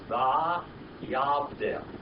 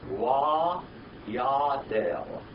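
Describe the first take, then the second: First: The word begins with a V sound. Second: The word begins with a W sound. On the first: This is the modern pronunciation. "Here in modern Hebrew is" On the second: This is the older biblical pronunciation. "if you pronounce this biblical Hebrew, it would be"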